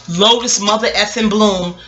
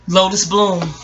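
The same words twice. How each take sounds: First: Slow, each word of "Lotus mother effing Bloom" leaned on; emphatic name. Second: Said in the usual way. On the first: Real, not acted. Praising the therapist, "Lotus mother effing Bloom" drawn out slowly.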